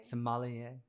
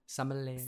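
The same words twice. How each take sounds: First: "Sommelier" repeated as suh-MAH-lee-ay, stress moved to the second syllable; corrected pronunciation. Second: "Sommelier" stumbled out as SAH-muh-lay, stress at the front; fumbled pronunciation. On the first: Shown as a demonstration. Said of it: "There you go". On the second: Real, not acted. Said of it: "I can't even say Master Somm".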